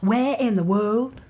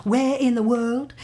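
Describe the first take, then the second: No difference in how they are said.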